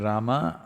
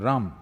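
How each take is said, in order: First: The word is said with its final syllable. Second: The word is said without its final syllable. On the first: "If you say Rama" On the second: "cutting off the last syllable"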